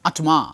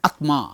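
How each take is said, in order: Both takes have the same delivery.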